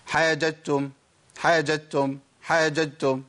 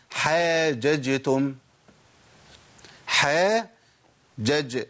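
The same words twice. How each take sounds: First: حاججتم with the two jeems merged into one; wrong merged jeem. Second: حاججتم very slow, each jeem separate; two jeems clearly. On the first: Retold or imitated. Teacher imitating what some people say. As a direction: run the jeems of حاججتم together like a careless reader. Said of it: "بعض الناس بيقول". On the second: Shown as a demonstration. Teacher modelling the repeated letter. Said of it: "جيم مفتوحة وبعد كده جيم ساكن".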